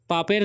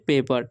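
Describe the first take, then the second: First: The first vowel sounds like 'a'. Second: The first vowel sounds like 'ay'. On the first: The speaker calls it wrong. "पापेर नहीं पढ़ लेना" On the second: The speaker calls it right. "P A P E R से पेपर"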